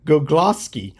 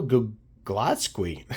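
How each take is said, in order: First: Gugloski said cleanly as "Gug-los-kee"; corrected name. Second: Gugloski ending in "skwee", not "skee"; slip on the name. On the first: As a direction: fix it: Gugloski ending in a plain "kee". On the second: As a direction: say Gugloski with a stray w sound, "Gug-los-kwee". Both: Real, not acted. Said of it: "I said squee".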